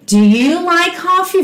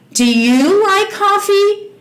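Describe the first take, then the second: First: Said in the usual way. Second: Slow, carefully spaced question; slow teacher demo. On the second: Shown as a demonstration. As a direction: model the question slowly. (pergunta modelada bem devagar) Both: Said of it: "E a pergunta".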